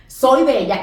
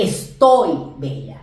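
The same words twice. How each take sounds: First: "soy" stressed against "estoy"; contrastive stress on soy. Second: "estoy" stretched on its last syllable; contrastive stress on estoy. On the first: Teacher contrasting two Spanish verbs for students, stress on "soy". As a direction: lean on "soy", then let "bella" fall. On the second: Teacher contrasting two Spanish verbs for students, stress on "estoy". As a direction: lean hard on "estoy", slowly. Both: Shown as a demonstration. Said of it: "No es lo mismo decir".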